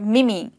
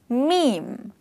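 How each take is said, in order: First: The word does not rhyme with dream. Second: The word rhymes with dream. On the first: The speaker calls it wrong. "you're actually maybe pronouncing it as meme or mimi. Well, that's not the correct pronunciation" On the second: The speaker calls it right. "The correct pronunciation of this word rhymes with the word dream"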